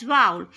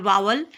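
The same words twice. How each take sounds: First: "vowel" said short, one clipped syllable; "vowel" as a single quick syllable, falling; correct pronunciation. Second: "vowel" said as wow-el, rising; "vowel" drawn out into two syllables, vow-el; wrong pronunciation. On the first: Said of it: "The correct pronunciation is vowel". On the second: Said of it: "It's absolutely wrong". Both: Shown as a demonstration.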